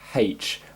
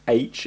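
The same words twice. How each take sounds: First: The letter name starts with an h sound. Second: The letter name starts with a vowel sound. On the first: This is how people from the speaker's background say it. The speaker calls it wrong. "I do say H. I know it's not the right way to say it" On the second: This is the standard way to say it. The speaker calls it right. "I do know that it should be H"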